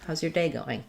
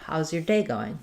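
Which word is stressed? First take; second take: day; day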